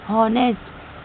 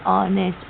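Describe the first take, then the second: First: The word begins with an audible h sound. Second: The word begins with a vowel, no h sound. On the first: The speaker calls it wrong. "ये तो लिखा है H O N E S T" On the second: The speaker calls it right. "यहाँ पे हम इसे हॉनेस्ट नहीं ऑनेस्ट पढ़ेंगे"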